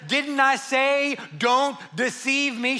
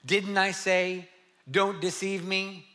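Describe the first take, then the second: First: It is said in an upset, sassy tone. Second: It is read in a plain, neutral tone.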